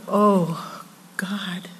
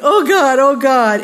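First: Soft, lingering "Oh... God"; awed, softly breathed-out prayer; reverent address. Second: Higher, insistent "Oh God" pleading; needy mock plea; demanding cry. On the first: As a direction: let it fall hushed, with a pause. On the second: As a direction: cry it out urgently, like begging. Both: Shown as a demonstration. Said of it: "Same words, but different emphasis".

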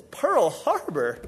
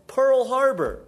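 First: Slow, puzzled repeat of Pearl Harbor; drawn-out bewildered question; incredulous echo. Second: Higher and louder, clipped answer; blunt one-word justification; curt retort. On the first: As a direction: echo it back, unable to believe it. Chinese guy repeats in disbelief. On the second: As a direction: snap back the reason as if obvious. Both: Acted.

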